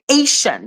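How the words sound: It is said with English sounds, with sh.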